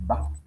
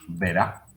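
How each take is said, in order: First: The word is cut to one short syllable. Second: The word is shortened, dropping the final d. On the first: "a veces simplemente decimos va" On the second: "a veces incluso decimos verá"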